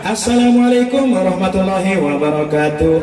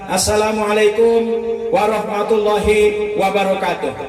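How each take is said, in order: First: The greeting is said in a flashy, theatrical way. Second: The greeting is said in a plain, ordinary way. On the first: A performer on a big stage. "Ada yang model begitu" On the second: An ordinary opening remark at an event. "R T sambutan"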